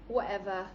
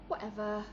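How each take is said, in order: First: The t sound in the middle is dropped. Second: The same.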